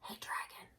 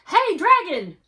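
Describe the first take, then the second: First: It is whispered very softly. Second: It is shouted very loudly.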